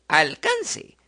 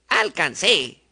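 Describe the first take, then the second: First: The stress is on the next-to-last syllable. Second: The stress is on the last syllable.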